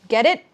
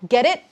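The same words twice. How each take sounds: The two takes are said the same way.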